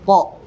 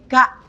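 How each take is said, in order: First: The consonant is pronounced thick, deep in the throat. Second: The consonant is pronounced thin, further forward. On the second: "dibaca tipis jadi ka"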